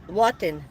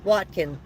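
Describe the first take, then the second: First: "Watin" with the k dropped, falling; simplified name. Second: "Watkin" with the k sounded, falling; first try at a name. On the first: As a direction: say "Watin" with no k, just wa-tin. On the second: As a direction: say "Watkin" with a clear k in the middle. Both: Shown as a demonstration. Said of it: "I can't pronounce it".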